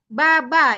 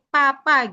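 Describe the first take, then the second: First: Each syllable starts with a voiced b sound. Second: Each syllable starts with a p sound. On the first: The speaker calls it wrong. "itu nggak dibaca B-nya itu ba" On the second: The speaker calls it right. "tapi P, papa gitu"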